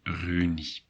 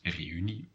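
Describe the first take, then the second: First: The e and u merge into one vowel. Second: The e and u are said separately. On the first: The speaker calls it wrong. "otherwise it would be" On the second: The speaker calls it right. "you have to uh, pronounce them separately"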